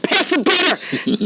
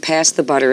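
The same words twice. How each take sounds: First: It is said loudly, with explosive energy. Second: It is said plainly, without much energy.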